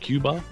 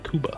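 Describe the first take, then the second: First: The first syllable sounds like 'cue'. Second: The first syllable sounds like 'coo'. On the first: This is how it is said in the States. "like with a Q-ish kind of thing" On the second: This is how people from Cuba say it. "and they say Cuba"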